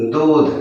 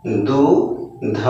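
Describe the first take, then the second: First: Said in the usual way. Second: Drawn-out reading. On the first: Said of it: "क्या हो जाएगा?". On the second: Shown as a demonstration. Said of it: "तब इसको हम लोग क्या पढ़ेंगे?".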